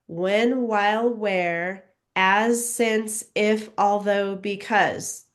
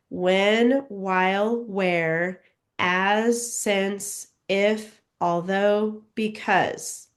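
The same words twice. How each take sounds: First: The words are read at a faster pace. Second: The words are read at a slow pace.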